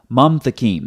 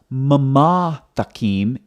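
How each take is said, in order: First: No vowel is sounded after the first m. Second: A vowel is sounded after the first m. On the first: The speaker calls it right. "it's mam thakim" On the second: The speaker calls it wrong. "not mama thakim"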